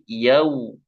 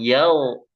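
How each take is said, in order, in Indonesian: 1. Diftongnya berakhir dengan bibir membulat penuh, seperti 'u'. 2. Diftongnya melemah menjadi vokal seperti 'o'. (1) "tapi yau ... dimanyunin ya sempurna"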